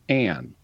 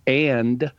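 First: The word ends on n without d. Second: The word ends with a d sound. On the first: "you tend to drop the plosive" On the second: "and becomes"

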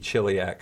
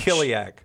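First: It uses the church Latin pronunciation. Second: It uses the classical Latin pronunciation. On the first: "That would be church Latin, not classical Latin" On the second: "In classical, it's C?"

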